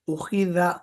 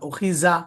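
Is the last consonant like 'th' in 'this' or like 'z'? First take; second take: th; z. First: The last consonant sounds like 'th', tongue out. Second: The last consonant sounds like a 'z', tongue inside. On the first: The speaker calls it right. "जबान बाहर निकाल के" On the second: The speaker calls it wrong. "जा नहीं पढ़ना, उखीजा बिल्कुल गलत"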